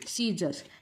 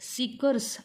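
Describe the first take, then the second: First: The middle sound is a z sound. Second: The middle sound is a k sound. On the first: The speaker calls it right. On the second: The speaker calls it wrong.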